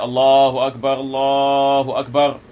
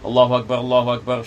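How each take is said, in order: First: It is said slowly, with a pause afterwards. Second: It is said quickly, running straight on. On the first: This is the call to prayer. "Jadi kita berhenti sekejap" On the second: This is the call that the prayer is starting. "kita terus"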